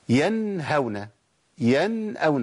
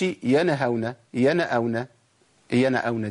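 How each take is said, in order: First: "ينهون، ينأون" with the first ن closed, no vowel after it; still noon. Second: "ينهون، ينأون" opened into "yana-hawna, yana-awna"; voweled noon error. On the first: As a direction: pronounce "yan-hawna, yan-awna", cleanly separated. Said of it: "لازم أسكن النون". (إظهار النون الساكنة في "ينهون، ينأون") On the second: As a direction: add a short "a" after the first ن of each word. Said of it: "ما أقولش". (تحريك النون خطأ في "ينهون، ينأون") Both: Shown as a demonstration.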